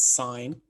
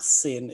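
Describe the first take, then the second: First: The vowel is long, like in 'pine'. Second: The vowel is short, like in 'pin'. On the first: The speaker calls it right. "it's sine" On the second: The speaker calls it wrong. "I've heard a lot of people say sin. It is not sin"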